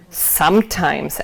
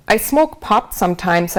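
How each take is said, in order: First: Slow, drawn-out mocking "Sometimes"; mocking echo. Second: Said in the usual way. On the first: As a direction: stretch "Sometimes" out slowly to tease her. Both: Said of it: "Adam mocked".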